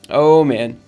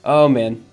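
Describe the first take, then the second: No difference in how they are said.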